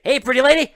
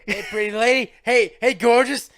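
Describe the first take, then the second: First: High, loud, brash come-on call; loud sleazy greeting. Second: High, loud, brash come-on call, hamming it up; loud sleazy greeting. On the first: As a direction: call out to her like a cheesy flirt. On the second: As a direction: shout the compliments like a cheesy flirt. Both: Retold or imitated. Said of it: "he just talks like that".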